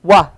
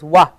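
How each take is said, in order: Both takes have the same delivery.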